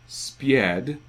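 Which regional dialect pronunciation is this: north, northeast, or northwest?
northeast. It is said in a northeastern dialect, with a glide. "Further east and north, we get spied, which they use a yod there"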